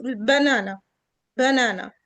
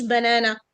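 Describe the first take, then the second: First: بنانا low, stressed long middle A, weak schwas around it; transcribed banana. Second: بنانا said low with fronted "eh" vowels; wrong banana. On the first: Teacher reading the transcription, banana with stressed long middle A. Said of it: "ازاي نقرا الترانسكريبشن". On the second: Teacher showing what not to say, banana with fronted vowels. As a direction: say بنانا like "banena", no long ah. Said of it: "مش بنانا". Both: Shown as a demonstration.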